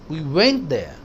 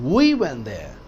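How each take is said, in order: First: The stress is on the word went. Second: The stress is on the word we. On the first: We actually went instead of calling. "ऐसे नहीं कि हमने call किया, हम गए वहां" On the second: We went ourselves, nobody else. "हम वहां गए, कोई और नहीं, हम खुद।"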